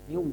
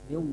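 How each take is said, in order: First: The r is rounded into a w sound. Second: The same.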